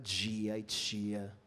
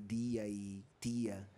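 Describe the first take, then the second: First: It is said in the expected local accent. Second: It is said in the woman's regional accent. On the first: This is the accent the employer wanted. "ela não falava dia e tia e teatro" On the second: This is the accent the employer looked down on. "Ela falava teatro e dia e tia"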